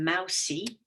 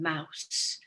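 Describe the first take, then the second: First: An extra vowel is sounded after the final s. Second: The word ends on the s with no vowel. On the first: The speaker calls it wrong. "They're not saying mousy" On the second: The speaker calls it right. "they're saying mouse"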